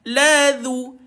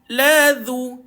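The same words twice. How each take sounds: No difference in how they are said.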